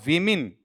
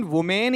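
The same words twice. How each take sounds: First: विमेन with i sounds, like 'wimin'; correct plural pronunciation. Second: वुमेन with 'wu' then a long 'men'; drawn-out वुमेन, like 'wu-mayn'; wrong plural pronunciation. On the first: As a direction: say विमेन as 'wi-min'. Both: Shown as a demonstration. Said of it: "कैसे बनाऊंगा इसका phonetic".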